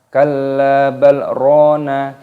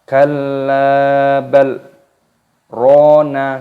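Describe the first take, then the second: First: It runs straight on with no pause. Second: There is a short held pause after 'bal'. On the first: The speaker calls it wrong. "tidak boleh langsung dibaca" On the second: The speaker calls it right. "berhenti di antara dua kalimat tanpa bernafas sekitar dua ketukan"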